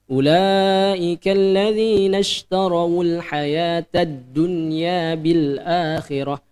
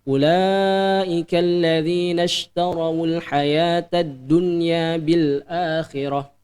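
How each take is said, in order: No difference in how they are said.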